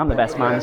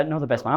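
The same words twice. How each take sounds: First: I'm stressed, correcting himself. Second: Said in the usual way. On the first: Shown as a demonstration. Best man correcting his own slip, stress on I'm. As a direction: lean on I'm, the rest lower.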